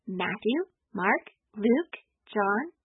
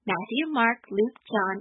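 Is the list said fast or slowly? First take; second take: slowly; fast. First: It is said slowly. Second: It is said fast.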